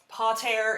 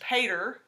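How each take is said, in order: First: The word has a Latin pronunciation. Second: The word has an English pronunciation. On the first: "pater in Latin" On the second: "or you can pronounce it in English"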